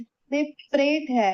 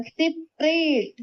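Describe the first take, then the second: First: सेपरेट said short, no vowel after प; correct form said. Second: सेपरेट drawn out slowly, vowel after प sounded; wrong spelling said aloud. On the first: Teacher to students, naming the correct spelling plainly. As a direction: give the right सेपरेट briskly. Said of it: "ये सेपरेट नहीं है". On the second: Teacher to students, sounding out the wrong spelling slowly. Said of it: "इसमें देखो क्या बोल रहा है". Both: Shown as a demonstration.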